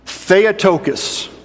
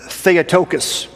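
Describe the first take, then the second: First: Theotokos spelled out slowly as THEH-oh-TOH-kos, every syllable clear, higher, falling at the end; model for repeating. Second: Theotokos said as THEH-oh-TOH-kos, clear and falling; Greek word introduced. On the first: Pastor leading the congregation to say the word, slow and deliberate. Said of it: "I'd like for all of us to say that word today". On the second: Pastor naming a Greek word for the congregation, carefully. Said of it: "There's a Greek word". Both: Shown as a demonstration.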